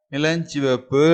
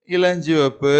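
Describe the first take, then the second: No difference in how they are said.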